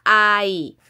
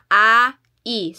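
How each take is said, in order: First: "Ai" glided together, ah into ee, drawn out; softened, blended vowels. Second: "Ai" as two distinct vowels, ah then ee; separated vowels. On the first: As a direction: blend "Ai" into one long syllable. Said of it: "i-soft nimo siya". ("Ai" nga gisumpay ug gipahumok) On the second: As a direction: say "Ai" split into A and I. Shows separate vowels before blending them. ("Ai" nga gibulag ang A ug I) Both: Shown as a demonstration.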